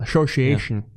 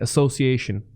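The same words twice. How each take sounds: First: The middle consonant is a sh sound. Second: The middle consonant is a plain s sound. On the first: This is how Dutch speakers say it. "it's a sh- more of a sh- sound" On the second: This is how Americans say it. "Americans would say association"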